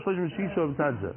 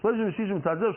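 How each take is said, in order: First: Shloishim v'shisha mitzad zeh with the tune dropping to a close; falling close. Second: Chanted, Shloishim v'shisha mitzad zeh with the tune rising on zeh; rising study chant. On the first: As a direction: settle it down, falling at the end. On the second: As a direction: chant it like a question, lifting at zeh. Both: Shown as a demonstration. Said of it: "so thirty-six on each side".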